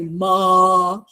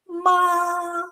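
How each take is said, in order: First: The syllable is said at a lower pitch. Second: The syllable is said at a high pitch. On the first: The speaker calls it wrong. "you don't say ma" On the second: The speaker calls it right. "you say ma, ma above your head"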